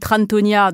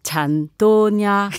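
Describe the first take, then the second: First: The name is pronounced with French sounds. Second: The name is pronounced with Vietnamese sounds. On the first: "dans la prononciation française" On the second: "en vietnamien c'est"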